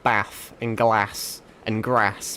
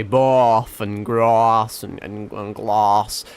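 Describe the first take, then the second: First: Slow northern English "bath", "glass" and "grass", all with a short flat a; northern English vowels, short flat a in "bath and glass and grass"; northern English accent. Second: Slow Norfolk "bath", "grass" and "glass", all with a long a and a rolled-in r, like "barth", "grarss", "glarss"; Norfolk farm accent. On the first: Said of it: "because I'm born up north, I say". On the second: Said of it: "but they say". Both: Shown as a demonstration.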